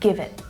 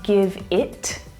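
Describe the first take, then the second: First: The final T is stopped without air. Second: The final T is released with air. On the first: The speaker calls it right. "I'm not releasing the air" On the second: The speaker calls it wrong. "I'm not saying"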